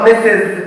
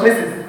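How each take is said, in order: First: The ending is said with an 'iz' sound. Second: The ending is said without an 'iz' sound. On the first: The speaker calls it right. "انطقها مسز" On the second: The speaker calls it wrong. "ما انطقهاش مسز"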